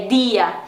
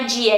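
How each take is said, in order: First: Dia as "dee-ah"; soft pure d. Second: Dia as Brazilian "djia"; palatal d. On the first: Teacher correcting to Spanish dia, pure d. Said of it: "é dia". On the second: Teacher showing learners what to avoid, dia as djia. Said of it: "que não é dia". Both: Shown as a demonstration.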